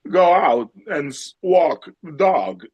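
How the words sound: It is said slowly with stretched, wavering words. "then you slow it down with these like like a waveform"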